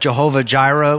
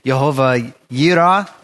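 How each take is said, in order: First: The second word begins with a j sound. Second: The second word begins with a y sound. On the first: The speaker calls it wrong. "people have pronounce it Jehovah Jireh" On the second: The speaker calls it right. "or more like Jehovah Yireh"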